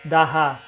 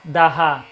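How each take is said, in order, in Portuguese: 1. Depois do d, vem uma sílaba separada, com vogal e h. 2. Depois do d, vem uma sílaba separada, com vogal e h.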